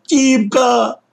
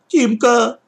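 First: Put-on high, loud desperate child cry. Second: Put-on high whiny child calling out; plaintive call. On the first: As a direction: scream his brother's name in despair. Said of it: "отчаянным Лёшкиным криком". (отчаянный крик) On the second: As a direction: call his brother's name plaintively. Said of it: "жалобно мне крикнул". (жалобный зов) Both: A narrator's reading.

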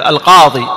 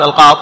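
First: "القاضي" loud, ending in long ee; final ya restored. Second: "القاض" loud, stopping on the consonant; final ya dropped. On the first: Teacher showing the correct definite form, "القاضي" with long ee. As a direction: say "القاضي" as al-qaadee. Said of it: "ترجع الياء". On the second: Teacher showing the mistake, "القاض" cut without final ee. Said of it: "ما تقول القاض". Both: Shown as a demonstration.

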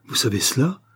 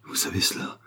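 First: Fully voiced, alarmed question; terrified repeat. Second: Frightened whisper, voice gone; terrified. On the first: Valet repeating his question to his accuser, alarmed and voiced. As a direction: ask it aloud in rising alarm. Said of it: "répéta le Portugais". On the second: Valet accused of two crimes, terrified whisper. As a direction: whisper it in sudden terror. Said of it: "manifesta soudain une terreur très vive". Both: A narrator's reading.

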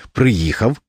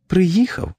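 First: Said in the usual way. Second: High, feeble little voice with a rising end; weak wife's voice. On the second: A narrator's reading. Bedridden wife greets her returning husband, weakly. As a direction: say it faintly, pitched right up. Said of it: "сказала вона слабким голосом".

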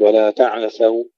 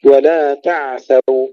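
First: تعثوا with a little vowel after ع; wrongly bounced ayn. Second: تعثوا as "ta'-thaw", no vowel after ع; slow recitation of تعثوا with an unbounced ع; flowing, still ayn. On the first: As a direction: mistaken recitation of تعثوا, echoing the ع. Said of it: "ولا نقول". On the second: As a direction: let the ع in تعثوا flow into th. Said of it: "العين أيضًا فيها الرخاء". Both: Shown as a demonstration.

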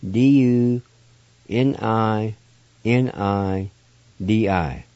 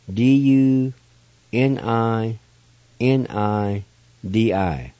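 Both takes have the same delivery.

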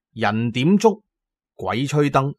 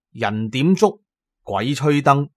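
No difference in how they are said.

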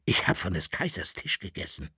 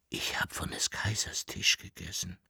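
First: Leise, erschüttert. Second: Tonlos geflüstert, langsam und schwer; ungläubig vor sich hin flüstern. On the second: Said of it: "flüsterte er". (der Saruba flüstert entsetzt zu sich selbst) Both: Acted.

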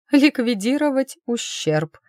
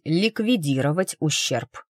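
First: Higher, automatic echo of the phrase; mechanical echo. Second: Said in the usual way. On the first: Acted. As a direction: repeat ликвидировать ущерб higher and absently, on autopilot. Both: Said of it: "машинально кивнула она".

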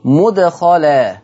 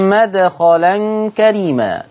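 First: مدخلا drawn out slowly with a damma on the mim, mudkhalan; Hafs mudkhala. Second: مدخلا recited slowly with a fatha on the mim, madkhalan karima; Warsh madkhala. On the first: Teacher recites Hafs mudkhalan to the class, slowly. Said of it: "حفص عن عاصم قرأ بضم الميم". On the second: Teacher recites Warsh madkhalan for students, slowly. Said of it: "قرأ بفتح الميم". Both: Shown as a demonstration.

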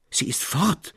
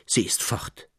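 First: Despairing cry. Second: Hushed, whispered disbelief; stunned whisper. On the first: Traugott cries out in despair to Elias Roos. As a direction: cry out the loss. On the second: Traugott whispers in shock that she is gone. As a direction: let it escape in shock. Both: A narrator's reading. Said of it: "So schrie er".

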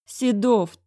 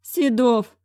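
First: Higher, louder headmaster saying the name; old headmaster calling him; pleading director. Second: Higher, louder director groaning a name; old headmaster dismayed. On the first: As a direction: reach for him in despair. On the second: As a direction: recoil at the sight of him. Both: A narrator's reading.

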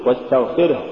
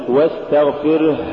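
First: Said in the usual way. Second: واستغفره with a long breathed final ه; overdone ha. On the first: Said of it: "قل". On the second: Shown as a demonstration. Teacher warning against exaggeration, overlong ه in واستغفره. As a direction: drag out the last ه in واستغفره. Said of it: "ولا تقل".

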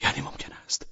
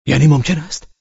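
First: A hushed, breathless whisper. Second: Higher, louder startled cry; cries out. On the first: Man repeating his shameful thought, whispering. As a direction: say it again under your breath. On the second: Man stunned by his own thought, crying out. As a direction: blurt it out in shock. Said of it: "فریاد کشید". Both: Acted.

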